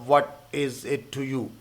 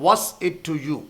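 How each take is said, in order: First: 'What is' is said as two full words. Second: 'What is' is shortened to one syllable.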